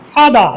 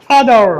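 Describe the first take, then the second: First: "ফাদার" ending on an open "a"; r-less pronunciation. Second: "ফাদার" ending in a held English r; r-coloured pronunciation. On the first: Teacher showing first of two right forms, silent r. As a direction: drop the final r of "ফাদার". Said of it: "দুটি right". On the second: Teacher showing second right form, sounded r. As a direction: curl the tongue on the end of "ফাদার". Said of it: "দুটি আমরা বলতে পারি". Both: Shown as a demonstration.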